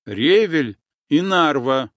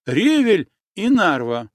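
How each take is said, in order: First: Louder, firm commanding repeat of the password; iron in the voice. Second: Higher, louder urgent call of the password. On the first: Nastya firmly ordering the boatman with the password, iron-voiced. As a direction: say it like an order, not a plea. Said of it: "В голосе Насти заиграли железные нотки". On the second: Girl urgently repeating the password to the boatman, calling out. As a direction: push the password out, anxious to be believed. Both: Acted.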